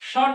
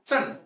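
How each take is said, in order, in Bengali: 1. শব্দাংশটি একটি নরম sh ধ্বনি দিয়ে শুরু হয়। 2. শব্দাংশটি একটি ch ধ্বনি দিয়ে শুরু হয়। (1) "স্বন নয়"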